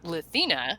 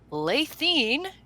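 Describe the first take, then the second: First: The name ends with a final 'ah' vowel. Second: The name ends without a final 'ah' vowel. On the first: This is the newer published pronunciation. "in this book, which is the new book, it's Lathina" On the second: This is the older published pronunciation. "it's pronounced Lathine in that book"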